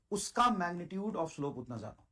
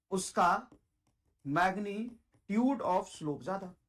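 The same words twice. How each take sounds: First: Said in the usual way. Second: Very slow, word-by-word dictation; slow emphatic repeat. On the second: Shown as a demonstration. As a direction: draw out magnitude syllable by syllable. Teacher repeats rule very slowly.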